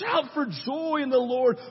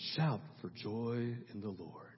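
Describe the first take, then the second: First: It is said loudly with lively energy. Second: It is said flatly and quietly.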